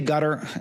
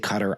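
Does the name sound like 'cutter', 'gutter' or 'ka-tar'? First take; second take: gutter; cutter. First: The name sounds like the word 'gutter'. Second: The name sounds like the word 'cutter'. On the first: "everyone in Washington pronounces it gutter" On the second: "Maybe I should say Cutter"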